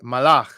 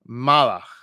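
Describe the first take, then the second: First: The stress is on the last syllable. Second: The stress is on the first syllable. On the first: The speaker calls it right. "in Hebrew, it would be more proper to say" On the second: The speaker calls it wrong. "We might say in English"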